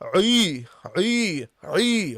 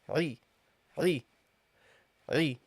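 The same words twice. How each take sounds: First: The syllable is pronounced heavy and thick. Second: The syllable is pronounced light and thin. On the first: The speaker calls it wrong. "don't make it heavy. Don't say ri ri ri" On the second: The speaker calls it right. "Make it light"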